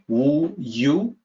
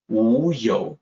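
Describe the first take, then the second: First: The second syllable sounds like English 'you'. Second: The second syllable sounds like 'yo'. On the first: The speaker calls it wrong. "the pinyin looks like wu yu" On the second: The speaker calls it right. "Wu yo is the correct sound"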